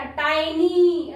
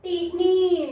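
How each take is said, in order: First: टाइनी slowly with a long eye; correct long I. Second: टीनी with short i, tin-ee; children's misreading. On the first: Shown as a demonstration. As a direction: stretch टाइनी out as tie-nee. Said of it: "टीनी नहीं पढ़ेंगे बेटा". (टाइनी में लंबा 'आई', खींचकर) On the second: Retold or imitated. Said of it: "तो क्या पढ़ते हैं". (बच्चों जैसा गलत 'टीनी')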